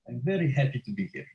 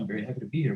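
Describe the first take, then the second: First: It is said in a Russian accent. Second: It is said in an American accent.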